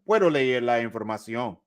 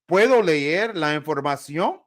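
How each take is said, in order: First: The pitch falls at the end. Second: The pitch rises at the end. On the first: It states that the speaker can read the information. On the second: It asks whether the speaker may read the information.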